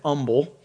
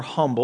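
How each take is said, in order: First: "humble" with a silent h; Southern pronunciation. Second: Said in the usual way. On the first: Shown as a demonstration. Preacher quoting how Southerners used to say it, "humble" without the h. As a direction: say "humble" as "umble", dropping the opening h. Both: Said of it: "as the Southerners used to say".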